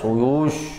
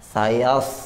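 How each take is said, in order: First: The vowels are said with rounded, pushed-out lips. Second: The vowels are said with unrounded lips. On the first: The speaker calls it wrong. "tebal itu tidak harus monyong ya Pak. Suyush, enggak" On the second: The speaker calls it right. "walaupun ini tidak monyong"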